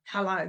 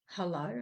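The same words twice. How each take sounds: First: Imitating Dad's curt, grumpy hello; short falling phone answer, put-out. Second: Soft, low hello with a small lift; nicer. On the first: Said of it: "he wasn't, "Hello," grumpy". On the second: Retold or imitated. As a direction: imitate Dad answering more gently. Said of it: "He was a nicer".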